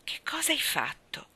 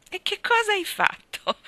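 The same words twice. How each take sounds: First: High, partly whispered question; hushed question. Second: Very high, loud astonished question; alarmed question. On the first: Anna pressing Davy to confess, hushed question. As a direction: ask it in a hushed, higher voice. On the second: Anna hearing Davy has been bad, alarmed question. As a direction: shoot way up in pitch, aghast. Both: A narrator's reading.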